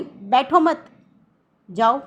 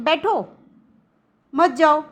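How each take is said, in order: First: "बैठो मत" together, then a pause before "जाओ"; pause after मत. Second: "बैठो" alone, a long pause, then "मत, जाओ" louder; pause after बैठो. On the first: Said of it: "जैसे हमने उदाहरण से समझाया था कि". ("मत" के बाद रुककर बोलें) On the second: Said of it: "लेकिन अगर हम इसी को कहते हैं कि". ("बैठो" के बाद लंबा ठहराव) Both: Shown as a demonstration.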